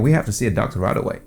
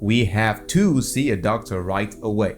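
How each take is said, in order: First: The words flow together in a reduced form. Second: Every word is articulated clearly and separately. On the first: "Naturally, you just want to let things flow" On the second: "If you want to articulate every word"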